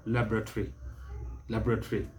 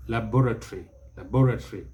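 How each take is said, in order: First: Laboratory with weight on LAB, softer; first-syllable stress. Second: Laboratory with weight on BOR; second-syllable stress. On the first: Teacher shows American stress in laboratory, first-syllable stress. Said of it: "stress the first syllable". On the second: Teacher shows British stress in laboratory, second-syllable stress. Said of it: "British will stress the second syllable". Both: Shown as a demonstration.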